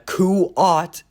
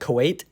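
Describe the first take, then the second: First: The name is said like 'Kuat'. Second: The name is said like 'Kuwait'. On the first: The speaker calls it right. "I finally pronounced it right" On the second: The speaker calls it wrong. "I was pronouncing it Kuwait this whole time"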